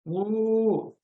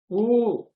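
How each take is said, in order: First: The vowel is held for three beats. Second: The vowel is held for two beats. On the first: "Trimatra. That is Pluta" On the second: "this is Dirgha"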